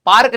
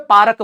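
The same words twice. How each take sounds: First: Said in the usual way. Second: पार्क as paarak with a vowel between r and k; पार्क split into two syllables, pa-rək; local pronunciation. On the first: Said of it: "पार्क नहीं बोलते, ये अंग्रेज बोलते हैं". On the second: Shown as a demonstration. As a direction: say पार्क the local way, paa-rak. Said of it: "हमारे यहाँ पे पार्क बोलते हैं".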